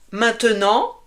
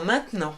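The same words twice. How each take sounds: First: The middle e is pronounced. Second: The middle e is dropped.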